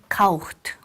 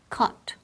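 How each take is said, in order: First: It is said with extra sounds, not plain 'kot'. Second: It sounds simply like 'kot'. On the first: The speaker calls it wrong. "a lot of times I hear kaucht" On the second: The speaker calls it right. "casi como si fuera K o T"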